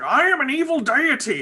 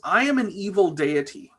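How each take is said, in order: First: High, mock-villain Manchester accent. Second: Said in the usual way. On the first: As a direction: ham it up as an evil god from Manchester. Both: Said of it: "he's got a Manchester accent".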